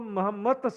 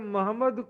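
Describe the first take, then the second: First: The word ends with a t sound. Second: The word ends with a d sound.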